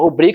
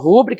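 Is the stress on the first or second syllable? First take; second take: second; first. First: The stress is on the second syllable. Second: The stress is on the first syllable. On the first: The word takes no written accent. "Se for rubrica, eu não vou acentuar" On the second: The word would take a written accent. "Se for rúbrica, eu vou querer acentuar, porque é a regra das proporções"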